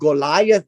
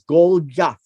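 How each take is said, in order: First: The name has the usual American English pronunciation. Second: The name has an original Hebrew-style pronunciation. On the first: "American pronunciation" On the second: "the real name is Goliath"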